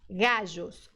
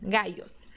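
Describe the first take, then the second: First: The double L sounds like a soft ZH. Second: The double L sounds like a Y glide. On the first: "É igual ao J do português" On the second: "com o som de I mesmo do português"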